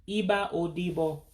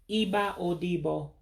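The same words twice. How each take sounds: No difference in how they are said.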